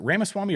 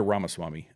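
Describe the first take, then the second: First: Ramaswamy with first "a" as in "ram"; alternative pronunciation. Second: Ramaswamy with first "a" as in "father"; habitual pronunciation. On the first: Host checking the name's pronunciation, Ramaswamy with a short "ram" start. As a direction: say Ramaswamy as RAM-uh-SWAH-mee. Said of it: "is it Ramaswamy or Ramaswamy". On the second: Host checking the name's pronunciation, Ramaswamy with an open "rah" start. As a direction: say Ramaswamy as RAH-muh-SWAH-mee. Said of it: "I've always been saying Ramaswamy". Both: Shown as a demonstration.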